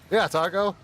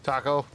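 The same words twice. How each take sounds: First: "Taco" said higher and louder as a mock Australian line; playful Australian accent demo. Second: Said in the usual way. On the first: Shown as a demonstration. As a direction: belt out "Yeah, Taco" as a show of Aussie talk. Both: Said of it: "Tell me something in Australian".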